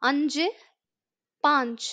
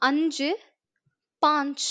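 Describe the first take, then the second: Both takes have the same delivery.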